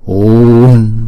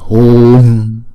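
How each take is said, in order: No difference in how they are said.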